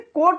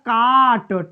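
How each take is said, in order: First: The vowel sounds like 'oh'. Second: The vowel sounds like 'ah'. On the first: The speaker calls it wrong. "इसे कोट नहीं पढ़ेंगे" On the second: The speaker calls it right. "आ से उच्चारण करते हैं"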